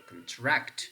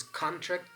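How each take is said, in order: First: "contract" as con-TRACT; second syllable of "contract" stressed. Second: "contract" as CON-tract; first syllable of "contract" stressed. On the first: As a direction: say the verb "contract", hitting TRACT. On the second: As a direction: say the noun "contract", hitting CON. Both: Shown as a demonstration. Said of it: "whether this is contract or contract".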